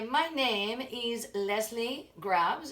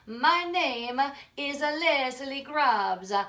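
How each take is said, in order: First: It is spoken in a French accent. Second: It is spoken in an Italian accent.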